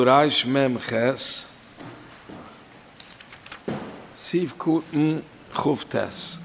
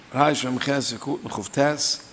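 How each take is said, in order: First: Slow, deliberate dictation of the reference; unhurried dictating pace; slow citation. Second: Said in the usual way. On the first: Shown as a demonstration. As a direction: spell the reference out slowly, word by word, so students can write down "Reich Mem Ches, Siv Kuten Chuf Tes". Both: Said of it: "Jetzt halt man du".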